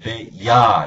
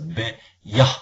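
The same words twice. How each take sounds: First: The final h is silent. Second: The final h is audibly breathed out. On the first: "이 H라는 것은 앞에 모음이 있으면 묵음이 됩니다. 그래서 배야 이렇게 되는데" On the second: "H를 소리를 내주라는 거예요. 그래서 배야, 배야 이렇게 정확하게 발음이 되죠"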